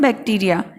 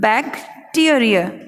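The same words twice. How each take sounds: First: The 'te' syllable carries no special stress. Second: The 'te' syllable is strongly stressed. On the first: The speaker calls it wrong. "हम उसको बोलते हैं bacteria" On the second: The speaker calls it right. "मैं ट पे ज़्यादा जोर इसलिए दे रही हूँ"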